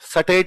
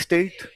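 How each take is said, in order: First: An extra vowel breaks the opening s-t cluster. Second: The opening s-t cluster is said together. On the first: The speaker calls it wrong. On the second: The speaker calls it right.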